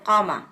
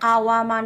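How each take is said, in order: First: The middle 'wa' becomes a long 'a'. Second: A 'wa' syllable is heard in the middle. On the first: The speaker calls it right. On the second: The speaker calls it wrong. "কাওয়ামা না বলে"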